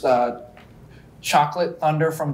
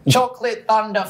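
First: It is said in the speaker's natural accent. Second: It is said in a put-on Australian accent.

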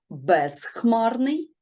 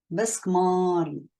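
First: The consonant before kh is a voiced z. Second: The consonant before kh is a voiceless s. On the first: "Ми можемо вимовити чітко безхмарний" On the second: "іноді у вимові ми можемо чути тут безхмарний"

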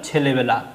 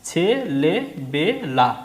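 First: The syllables run together as one word. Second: Each syllable is said apart with pauses. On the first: "এই চারটি মিলে হলো" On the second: "ভেঙে ভেঙে পড়তে হলো চারবার"

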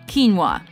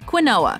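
First: The word sounds like 'keen-wah'. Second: The word sounds like 'kwin-oh-ah'. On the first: The speaker calls it right. "Correct pronunciation" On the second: The speaker calls it wrong. "Common mispronunciation"

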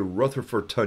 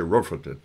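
First: The name is said fully, as written. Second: The name is said in a local form. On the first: This is how outsiders say the name. The speaker calls it wrong. "you don't say Rutherfordton" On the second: This is how people from the town say it. The speaker calls it right. "you say Rutherfordton"

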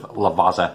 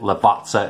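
First: The double z is sounded as z. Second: The double z is sounded as ts. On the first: The speaker calls it wrong. "instead of Lavazza" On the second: The speaker calls it right. "I must remember to pronounce it Lavazza"

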